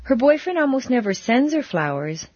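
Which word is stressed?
sends. The stress falls on the word sends. Flowers are given in another way. "but he planted a lot in her garden"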